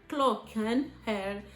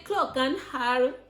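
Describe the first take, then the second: First: The second word sounds like 'är' (is). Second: The second word sounds like 'har' (have). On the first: The speaker calls it right. "I'm supposed to say clock and her" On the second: The speaker calls it wrong. "no, I'm not supposed to say her"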